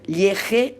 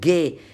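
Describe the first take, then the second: First: The consonant is a throaty J sound. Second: The consonant is a hard G sound. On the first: The speaker calls it wrong. "no está bien, porque no es lo mismo" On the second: The speaker calls it right. "para pronunciar ge, ges, ge, tengo que poner también la U"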